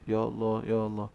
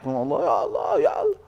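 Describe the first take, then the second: First: It is said at normal speaking loudness. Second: It is shouted loudly and excessively.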